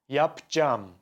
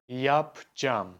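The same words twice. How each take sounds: No difference in how they are said.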